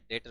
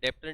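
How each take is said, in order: First: No b sound is pronounced before the t. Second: A b-like sound is pronounced before the t. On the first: The speaker calls it right. "डेटर होता है" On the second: The speaker calls it wrong. "अरे डेप्टर नहीं होता है"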